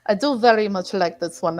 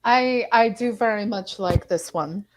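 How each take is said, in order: First: A light Russian accent on every word. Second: Said in the usual way. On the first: Shown as a demonstration. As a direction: say it like a Russian speaker, understated. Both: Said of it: "I can talk with the Russian dialect as well".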